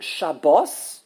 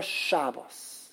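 First: Sha-BOS, slow, with weight on bos; stress on last syllable. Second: SHAB-bos, slow, with a weak ending; stress on first syllable. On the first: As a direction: lean on the second syllable of Shabbos. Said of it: "let's take an example". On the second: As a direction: lean on the first syllable of Shabbos. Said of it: "The first syllable". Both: Shown as a demonstration.

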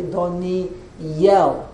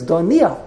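First: "Doniel" drawn out with a clear Y before "el"; pronounced with Yud. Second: "Doniel" with no Y glide before the end; pronounced without Yud. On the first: Teacher inserts the letter to correct the name, "Doniel" with a stressed Y. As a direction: split "Doniel" into do-ni-YEL. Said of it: "insert the Yud to pronounce his name". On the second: Teacher reads the missing-letter spelling, "Doniel" without a Y sound. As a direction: run the end of "Doniel" together, skipping the Y. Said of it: "without the Yud". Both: Shown as a demonstration.

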